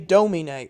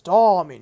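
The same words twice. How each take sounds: First: The vowels are flat and narrow. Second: The vowels are tall and open. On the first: The speaker calls it wrong. "You don't say domine" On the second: The speaker calls it right. "Tall vowels"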